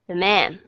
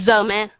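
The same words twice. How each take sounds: First: "the" reduced to a quick weak schwa, weight on "man"; light unstressed the. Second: "the" said loud and full, "man" weaker; wrong stress on the. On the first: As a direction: glide over "the", land on "man". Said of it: "Các bạn thấy nó nhẹ nhàng hơn không". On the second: Teacher mimicking students' wrong reading, the stressed. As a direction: stress "the" as if it mattered. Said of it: "Các bạn nhấn sai chỗ". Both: Shown as a demonstration.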